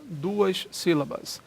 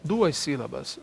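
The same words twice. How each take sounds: First: "Duas sílabas" drawn out slowly, each syllable held; teacher slowing "Duas sílabas" for emphasis; slow, spelled-out count. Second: Said in the usual way. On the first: Shown as a demonstration. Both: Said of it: "aqui eu tenho mais de uma sílaba".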